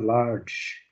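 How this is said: It is said with an American accent. "Olha a pronúncia americana"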